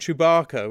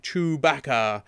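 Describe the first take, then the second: First: The name is said with an American pronunciation. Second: The name is said with a British pronunciation. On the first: "which is how the Americans pronounce it" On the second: "which was very British"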